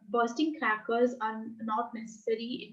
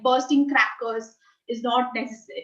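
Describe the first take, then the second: First: It is spoken low and quietly. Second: It is spoken with raised volume. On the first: "if I lower my pitch and say it like" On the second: "if I increase my volume a bit and I say it like"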